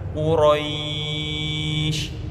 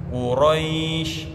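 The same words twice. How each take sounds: First: The final vowel is held for four counts. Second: The final vowel is held for two counts. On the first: "empat harokat" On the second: "dua harokat"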